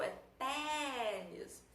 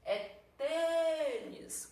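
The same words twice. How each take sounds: First: Tênis with a long open é, "TÉ-nis". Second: Tênis with a long, high closed ê. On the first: Teacher testing a timbre aberto, open é drawn out. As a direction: stretch tênis on an open é as in "bet". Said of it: "ele vai dar um som de é". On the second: Teacher testing a timbre fechado, closed ê drawn out. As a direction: stretch tênis on a closed ê as in "they". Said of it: "um som de e". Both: Shown as a demonstration.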